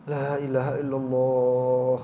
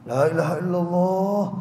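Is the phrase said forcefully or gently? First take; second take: gently; forcefully. First: It is said slowly and gently. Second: It is said forcefully and insistently. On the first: The reciter seems to say it for themselves so the other joins. The speaker calls it right. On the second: The dying person is being pressured to say it. The speaker calls it wrong. "nyebut toh kayak dipaksa"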